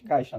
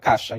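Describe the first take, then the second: First: The first syllable is said with the i glide. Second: The first syllable is said without the i glide. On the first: This is the full form that matches the spelling. "em vez de caixa" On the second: This is how people usually say it locally. "É quase como igual a ca caixa"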